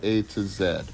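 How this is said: The last letter is said as zed.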